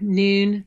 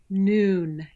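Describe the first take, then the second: First: The vowel is made with the tongue pushed forward. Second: The vowel is made with the tongue further back. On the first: The speaker calls it wrong. "the tongue, it's like sort of pushed forward" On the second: The speaker calls it right. "noon, instead of noon"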